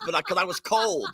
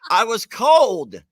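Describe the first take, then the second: First: Said in the usual way. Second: Slow, louder I was cold, each word weighted; stressed insistence. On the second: Real, not acted. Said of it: "'cause I was cold".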